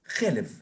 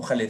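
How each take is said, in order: First: "jelev" with e at the start and e after; reading as jelev. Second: "jaleb" with a at the start and e after; reading as jaleb. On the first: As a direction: say "jelev", meaning fat. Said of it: "lo puedes leer como". ("jelev", leído como grasa) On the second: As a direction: say "jaleb", meaning milk. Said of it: "puedes leerla como". ("jaleb", leído como leche) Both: Shown as a demonstration.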